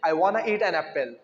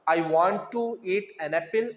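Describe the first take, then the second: First: 'Want to' is blended into one word 'wanna'. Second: 'Want to' is said as two separate words.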